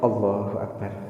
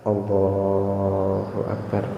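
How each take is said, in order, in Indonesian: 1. Frasa itu diucapkan cepat. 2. Frasa itu diucapkan lambat dan panjang.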